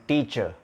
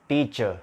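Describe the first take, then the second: The two takes are said the same way.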